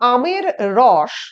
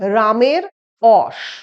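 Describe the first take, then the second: First: The phrase begins with a vowel sound. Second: The phrase begins with an r sound.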